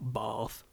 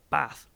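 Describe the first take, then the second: First: It is said with the London pronunciation. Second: It is said without the London pronunciation. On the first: This is how Londoners mistakenly say the name. The speaker calls it wrong. "not Bath" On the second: This is the proper way to say the city name. The speaker calls it right. "Bath, not Bath"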